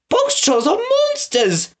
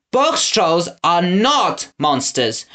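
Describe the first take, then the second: First: "Box trolls are monsters!" cried much higher, slow, in a scandalised woman's voice; high alarmed accusation; alarmed townswoman. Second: "Box trolls are not monsters," said slow and steady near normal pitch, a mild mock shout; firm retort. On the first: Townswoman condemns the box trolls, high scandalised cry. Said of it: "called the woman". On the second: Winnie answers the crowd, firm mild mock shout. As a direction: correct her firmly, slowly. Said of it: "Winnie shouted at them". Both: A narrator's reading.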